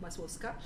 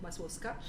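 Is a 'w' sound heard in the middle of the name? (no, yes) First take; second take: no; no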